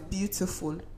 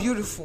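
First: The word is said without an added R sound. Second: The word is said with an added R sound. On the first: The speaker calls it right. "The word is beautiful" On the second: The speaker calls it wrong. "It's not beautiful"

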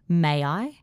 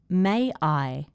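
First: The words are joined by a gliding Y sound. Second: The words are said slowly and separately. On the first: "Then I will say it with intrusion" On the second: "I'm going to say it slowly"

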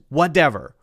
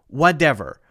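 Both takes have the same delivery.

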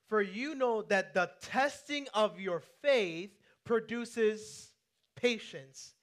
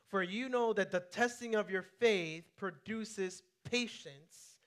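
First: It is read with strong, forceful conviction. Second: It is read plainly, with ordinary conviction.

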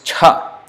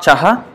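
First: The ch is released with one breath puff. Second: A vowel separates the ch and the h. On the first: The speaker calls it right. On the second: The speaker calls it wrong.

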